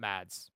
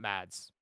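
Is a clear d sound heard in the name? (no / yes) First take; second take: yes; yes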